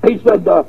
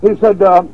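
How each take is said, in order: Both takes have the same delivery.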